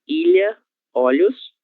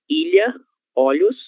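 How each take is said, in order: Both takes have the same delivery.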